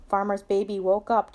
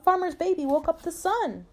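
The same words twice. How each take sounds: First: Said in the usual way. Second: High, delighted announcement; pitched-up read-aloud dog; excited dog. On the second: A narrator's reading. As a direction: share big news as the storybook dog. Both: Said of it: "said Dog".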